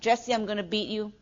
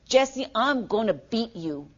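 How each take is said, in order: First: It is said lightly, like a joke. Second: It is said in a menacing tone.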